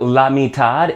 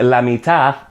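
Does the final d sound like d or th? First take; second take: d; th. First: The final d is pronounced as a d. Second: The final d is pronounced as a th. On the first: "la mitad in Mexico" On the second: "would be la mitad in Spain"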